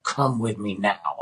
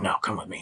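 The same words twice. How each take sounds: First: Slow, deliberate imitation of her order; retold firm demand. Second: Low, soft imitation of her demand; retold quiet insistence. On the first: Woman dragging him to the field, slow firm demand. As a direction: space out each word to insist. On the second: Woman urging him toward the field, low quiet insistence.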